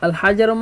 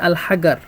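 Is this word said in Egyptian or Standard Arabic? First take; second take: Standard; Egyptian. First: Standard Arabic, with a j sound. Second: Egyptian Arabic, with a hard g sound.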